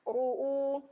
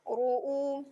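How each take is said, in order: No difference in how they are said.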